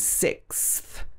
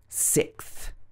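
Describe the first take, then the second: First: The s sound before th is kept. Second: The s sound before th is dropped. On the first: "should be s, I, k, s plus a th" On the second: "they'll miss out the s in the middle"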